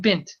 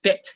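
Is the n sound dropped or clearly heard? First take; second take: heard; dropped. First: The word is said with a clear n sound. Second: The word is said fast, dropping the n sound. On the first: "try saying bint" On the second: "when you say it fast"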